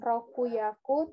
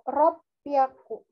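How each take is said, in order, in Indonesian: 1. Bagian tengahnya punya bunyi k penuh dan vokal. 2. Bagian tengahnya punya bunyi p yang digandakan. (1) "bukan rokuyaku" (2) "tapi ro, ropyaku"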